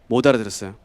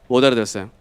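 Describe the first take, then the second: No difference in how they are said.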